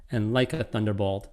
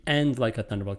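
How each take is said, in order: First: "like" weighted over "And"; stress on like. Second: "and" stressed as well as "like". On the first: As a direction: lean on "like", leave "And" light. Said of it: "two ways to do the end here". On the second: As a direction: hit both "and" and "like". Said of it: "It could be a stress on both". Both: Shown as a demonstration.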